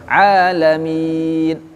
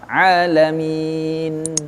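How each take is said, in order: First: The final n vanishes abruptly. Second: The final n is clearly held. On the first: The speaker calls it wrong. "Enggak boleh alamin langsung hilang" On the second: The speaker calls it right. "N-nya itu ada"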